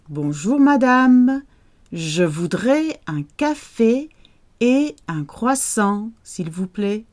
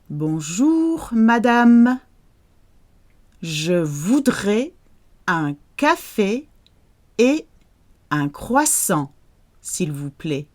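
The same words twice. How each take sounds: First: It is spoken at a somewhat faster pace. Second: It is spoken at a slower, careful pace.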